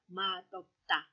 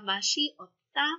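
First: It has a d sound before the o. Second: It has an s sound before the o. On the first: The speaker calls it right. "pero ang basa natin dito ay madopta" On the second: The speaker calls it wrong. "pakinggan nyo, nag-change yung pronunciation"

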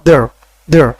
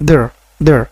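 No difference in how they are said.

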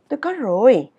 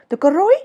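First: The voice falls at the end. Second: The voice rises at the end. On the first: The speaker calls it right. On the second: The speaker calls it wrong.

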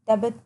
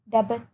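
No difference in how they are said.

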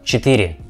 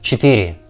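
Both takes have the same delivery.

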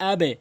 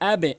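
The two takes are said the same way.

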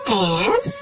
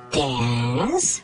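First: It is said with the second tone. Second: It is said with the third tone. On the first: "Yung second tone ay nag-iinarteng tone, gaya ng" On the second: "Ang third tone naman ay yung parang may pagdududa na tone, gaya ng"

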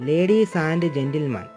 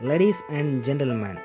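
The two takes are said the same way.

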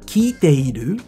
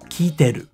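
First: The 'i' before the final 'ru' is pronounced. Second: The 'i' before the final 'ru' is dropped.

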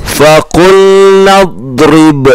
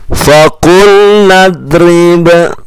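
Both takes have the same delivery.

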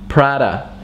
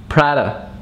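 No difference in how they are said.

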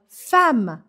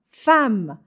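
No difference in how they are said.

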